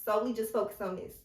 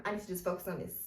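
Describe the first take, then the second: First: Solely punched at the start, said fast; stress on Solely. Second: Said in the usual way. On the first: Shown as a demonstration. Pressing viewers to focus on one goal, with stress. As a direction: hit the word Solely.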